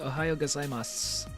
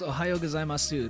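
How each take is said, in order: First: The final u vowel is dropped. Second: The final u vowel is clearly sounded. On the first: "They say Ohayo gozaimasu" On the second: "Nobody ever says Ohayo gozaimasu"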